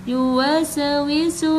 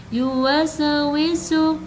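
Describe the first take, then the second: Both takes have the same delivery.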